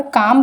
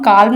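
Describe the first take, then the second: First: "काम" said as kaam, with no L sound; correct pronunciation. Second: "काल्म" said as kaalm, with the L sounded; wrong pronunciation. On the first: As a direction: say "काम" like kaam, the L left silent. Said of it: "तो यहाँ पर काम बोलते हैं हम". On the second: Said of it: "हम काल्म नहीं बोलते हैं". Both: Shown as a demonstration.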